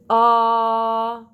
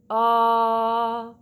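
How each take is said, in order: First: The vowel starts with a hard, forced catch. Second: The vowel starts with a hard, forced catch.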